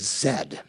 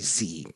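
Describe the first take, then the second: First: The letter is said as zed, Canadian style. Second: The letter is said as zee, American style.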